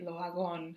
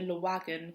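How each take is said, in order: First: The name is said with a French accent. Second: The name is said with an English accent.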